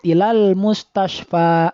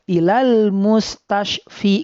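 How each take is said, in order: First: The last word ends with an a vowel. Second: The last word ends with an i vowel. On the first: The speaker calls it right. "Sudah saja sesuai dengan harokat yang ada sebelum huruf alif tersebut" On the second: The speaker calls it wrong. "tidak usah dibaca ilal mustashfi, nggak usah"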